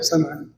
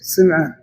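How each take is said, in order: First: The first vowel is a. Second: The first vowel is i. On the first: "ويصلح" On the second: "الأصح بالكسر"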